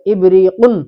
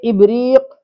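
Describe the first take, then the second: First: The word ends with the final -un sound. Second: The word ends without the final -un sound. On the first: The speaker calls it right. "तनवीन के साथ पढ़ेंगे" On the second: The speaker calls it wrong. "ऐसा नहीं पढ़ेंगे"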